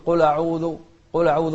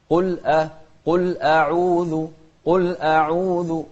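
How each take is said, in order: First: Loud "قل أعوذ" run together as qula'udhu; blurred hamza. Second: Loud, slow "قل أعوذ" with a distinct stop before the a; clear light hamza. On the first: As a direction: slur over the hamza in "قل أعوذ", quickly. (إخفاء الهمزة خطأً في "قل أعوذ") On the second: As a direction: separate "قل أعوذ", sounding a thin hamza. (توضيح الهمزة مرققة في "قل أعوذ") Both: Shown as a demonstration. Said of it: "ما يوضح الهمزة".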